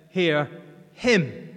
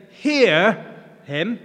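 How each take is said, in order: First: "Hear" kept low, then a pause and weight on HIM; stress on HIM. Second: HEAR loud and drawn out, "him" falling away after it; stress on HEAR. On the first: Preacher offering God's other possible reading, stress on him. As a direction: hold back Hear, then lean on him. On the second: Preacher imagining how God might say it, stress on Hear. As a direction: punch the word Hear, then let him drop. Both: Shown as a demonstration. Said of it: "Would he emphasize the him or the here".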